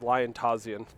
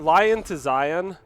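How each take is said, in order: First: The name is said as 'Lion Tazian'. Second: The name is said as 'Lion to Zion'. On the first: This is how the name was said for a year. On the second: This is the other way to say the name.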